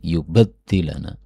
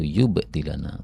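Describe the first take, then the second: First: The d is doubled, with a vowel before it. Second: The d is single, with no vowel before it. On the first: "Bisa dibaca yang pertama bitasydid" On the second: "dengan takhfif tanpa tasydid"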